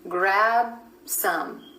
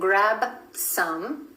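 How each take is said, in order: First: The B is held, going straight into S. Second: The B is released before the S. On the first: The speaker calls it right. "lips coming together for that final B, B sound and going straight then into the S" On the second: The speaker calls it wrong. "instead of"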